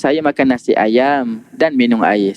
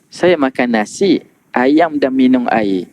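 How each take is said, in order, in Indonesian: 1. Mengalir terus tanpa jeda setelah nasi. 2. Ada jeda setelah kata nasi.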